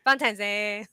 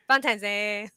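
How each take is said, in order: First: The word is said with an n sound. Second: The same.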